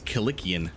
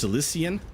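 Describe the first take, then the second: First: The C sounds are hard, like K. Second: The C sounds are soft, like S. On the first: The speaker calls it right. "I think the C's are hard" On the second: The speaker calls it wrong. "I thought it uh, first"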